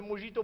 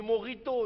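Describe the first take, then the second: First: "mojito" with a French zh sound for the j; wrong pronunciation of mojito. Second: "morito" with a throaty r-like sound for the j; corrected pronunciation of mojito. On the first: Colleague showing the official his mistake, French-style "mojito". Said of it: "on dit pas du mojito". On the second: Colleague correcting the official's drink name, insistent throaty "morito". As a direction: hit "morito", louder, throaty middle consonant. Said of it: "on dit du morito". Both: Shown as a demonstration.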